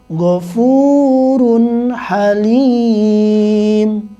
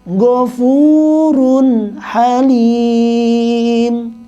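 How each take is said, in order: No difference in how they are said.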